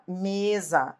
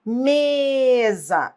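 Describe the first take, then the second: First: Said in the usual way. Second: Mesa called out with a long, high ME; stressed syllable exaggerated. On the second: Shown as a demonstration. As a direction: stretch the ME of Mesa to test where the stress falls. (Mesa com o ME esticado e agudo) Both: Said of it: "Qual é a sílaba forte?".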